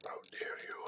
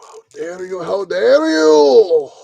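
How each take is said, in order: First: Very soft, scandalised whisper; hushed start of a hammed-up tirade; whispered mock outrage. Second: Hammed-up escalating indignation; building mock outrage. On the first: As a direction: whisper it as if deeply offended. Mock outrage at the kit, building. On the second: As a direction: build from hushed to a drawn-out indignant cry.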